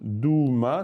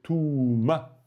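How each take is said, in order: First: The word begins with a voiced d sound. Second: The word begins with a voiceless t sound. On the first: The speaker calls it wrong. "c'est pas dou" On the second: The speaker calls it right. "c'est touma"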